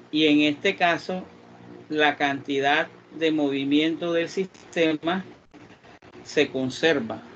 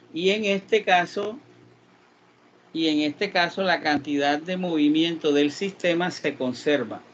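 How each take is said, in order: Both takes have the same delivery.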